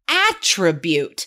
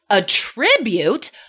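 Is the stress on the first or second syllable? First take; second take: first; second. First: The stress is on the first syllable. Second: The stress is on the second syllable. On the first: It is used as a noun. "noun, first syllable stress" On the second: It is used as a verb. "verb, second syllable stress"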